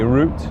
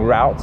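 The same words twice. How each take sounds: First: The word is said with a British pronunciation. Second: The word is said with an American pronunciation. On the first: "In English, in the U K, we say route" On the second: "If you're in uh, America, you're going to be saying route"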